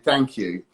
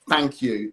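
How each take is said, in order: First: The first sound is a th sound. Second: The first sound is not a th sound. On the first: This is the adult way to say it. "instead of saying" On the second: This is how a young child says it. "kids will say, like"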